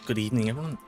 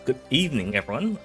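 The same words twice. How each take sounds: First: The greeting is mumbled and indistinct. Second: The greeting is spoken clearly and distinctly. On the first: The speaker calls it wrong. "kind of mumbled that" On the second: The speaker calls it right. "Let me do, do that again"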